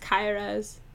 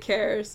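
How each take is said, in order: First: The name sounds like Cairo ending in eh. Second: The name lacks the Cairo-like sound. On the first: The speaker calls it right. "it's like Cairo, but it's an E instead of an O" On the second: The speaker calls it wrong. "most people pronounce it Cares"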